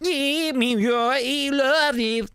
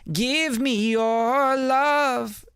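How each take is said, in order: First: It is said in a robotic, auto-tuned voice. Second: It is said in a natural, human voice.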